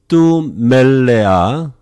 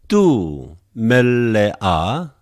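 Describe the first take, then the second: First: It is read at a normal, quicker pace. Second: It is read at a slower pace.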